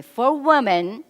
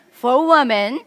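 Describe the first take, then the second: First: Louder, higher, slow lead-in for an audience; call for repetition. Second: Much louder, higher rallying cue; emphatic repeat call. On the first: Seminar speaker cueing the men to repeat after her, leading call. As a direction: draw out "For women" with a rising end, cueing an echo. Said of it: "repeat after me". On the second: Seminar speaker prompting the men to try again, emphatic loud call. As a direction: belt out "For women" with a rising end for the crowd to echo. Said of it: "let's try again". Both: Shown as a demonstration.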